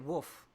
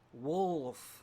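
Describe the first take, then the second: First: The word sounds like woof, without an L. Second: The word is said with a clear L sound. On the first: "I always say wolf, like a a weak dog" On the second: "Got to get that L in there"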